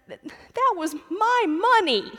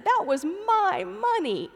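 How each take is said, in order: First: Put-on high, slow, loud sobbing child voice; sobbing toddler. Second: Put-on high, slow child's sobbing protest; sobbing toddler. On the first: Toddler sobbing to his father in the narthex, high and slow. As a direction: whimper it out like a robbed three-year-old. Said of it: "between sobs". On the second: Toddler insisting to his father about the quarter, high slow sobbing. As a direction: plead it through tears like a little boy. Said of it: "he said".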